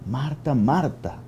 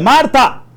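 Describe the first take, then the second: First: The name is said lovingly, with tenderness. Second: The name is said coldly, without tenderness.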